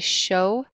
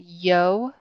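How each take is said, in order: First: The word begins with a 'sh' sound. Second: The word begins with a 'y' sound. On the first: "the Y and the double L makes a sh sound" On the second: "like a Y sound"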